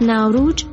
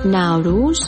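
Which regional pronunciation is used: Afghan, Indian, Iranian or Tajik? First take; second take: Indian; Afghan. First: It is said in an Indian pronunciation. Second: It is said in an Afghan pronunciation. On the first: "از ناوروج در لکنو هند" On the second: "در افغانستان ناوروز"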